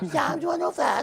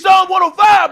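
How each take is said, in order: First: It is said weakly and hesitantly. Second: It is said boldly and forcefully. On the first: The speaker calls it wrong. "I don't want you to be like" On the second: The speaker calls it right. "Say it with your chest"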